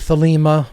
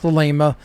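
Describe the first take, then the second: First: The second syllable lacks a long A vowel. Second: The second syllable has a long A vowel. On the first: The speaker calls it wrong. "They say Thelema" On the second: The speaker calls it right. "it should be pronounced Thelema"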